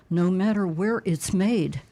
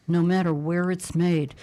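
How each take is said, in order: Both takes have the same delivery.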